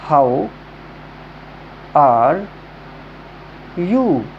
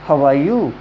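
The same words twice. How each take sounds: First: It is said slowly, word by word. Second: It is said quickly in one smooth flow.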